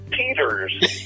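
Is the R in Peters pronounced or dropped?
pronounced. The R sounds are clearly pronounced.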